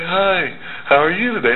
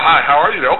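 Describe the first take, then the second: First: It is said slowly and lazily. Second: It is said quickly and energetically.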